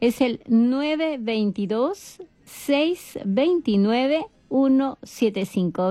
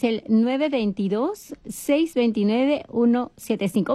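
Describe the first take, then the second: First: The number is said at a slow pace. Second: The number is said at a quick pace.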